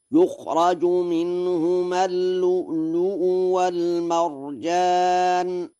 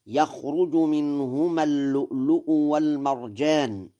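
First: Chanted Quran verse, higher, held notes, "يخرج" as yukhraju; sung, intone it in sustained tartil, yukhraju with u then a; sung, Warsh recitation. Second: Said in the usual way. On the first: Shown as a demonstration. Lecturer demonstrates Warsh's reading to listeners, chanted recitation. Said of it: "فيقرأ هكذا". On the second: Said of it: "قوله تعالى".

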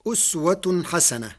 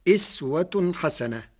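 First: أسوة as uswatun, opening on u; أسوة حسنة recited uswatun ḥasana; damma on the hamza. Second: إسوة as iswatun, opening on i; إسوة حسنة recited iswatun ḥasana; kasra on the hamza. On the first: Lecturer reciting the verse before Warsh's variant, uswa. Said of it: "قرأ ورش كلمة أسوة". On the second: Lecturer showing how Warsh reads it, iswa. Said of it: "بكسر الهمزة". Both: Shown as a demonstration.

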